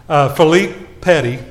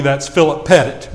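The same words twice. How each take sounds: First: "Philippe Petty" said the French way, fee-LEEP peh-TEE; French pronunciation. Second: "Philip Pettit" said in plain Oklahoma English, FIL-ip PET-it; Okie pronunciation. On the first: Introducing the film hero to the congregation, French "Philippe Petty". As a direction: give "Philippe Petty" its French sound, stress on the end. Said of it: "Now, in Okie, that's Philip Pettit". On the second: Joking to the congregation how Oklahomans say it, Okie "Philip Pettit". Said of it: "in Okie". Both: Shown as a demonstration.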